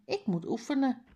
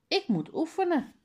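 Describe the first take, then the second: First: Said in the usual way. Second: Faisal calls back over his shoulder, much higher; calling out, voice higher. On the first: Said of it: "zegt Mala". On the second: Acted. Faisal calls to Harry that he must practise, high called-out voice. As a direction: sing it out high and bright to a friend. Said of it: "roept Faisal".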